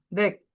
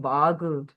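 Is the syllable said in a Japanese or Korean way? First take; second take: Korean; Japanese. First: It is one syllable ending in a consonant. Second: It is two syllables with an added vowel.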